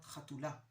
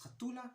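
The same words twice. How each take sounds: First: The stress is on the last syllable. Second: The stress is on the second-to-last syllable. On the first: This is the more general way of saying it. "not chatula, which is the more general way of speaking" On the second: This is how it is said in Jerusalem. "we use a pen ultimate, pen ultimate stress. So it's chatula"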